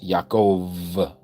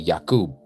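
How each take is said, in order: First: The middle consonant is a V sound. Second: The middle consonant is a B sound. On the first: The speaker calls it wrong. "is not pronounced Yaakov with a V" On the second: The speaker calls it right. "so it should be Yakub with the B"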